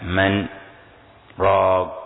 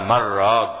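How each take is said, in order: First: A brief pause separates the two words. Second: The n merges into the r without a pause. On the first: "وقراء عاصم بالسكتة" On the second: "قراء أبو عمر بإدغام النون في الراء"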